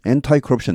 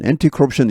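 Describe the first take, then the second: First: The first part ends in an 'eye' sound. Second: The first part ends in an 'ee' sound. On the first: "한 절반 정도는 엔타이 커럽션 이렇게 하는" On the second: "한 절반 정도는 엔티 커럽션 이렇게 하고"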